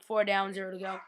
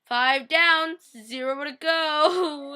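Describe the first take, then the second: First: Said in the usual way. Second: High, loud, drawn-out mock wail; sad. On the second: Fan counting the deaths after John's, sad drawn-out wail. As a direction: stretch it out mournfully, tearful at the end. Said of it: "And I was so sad".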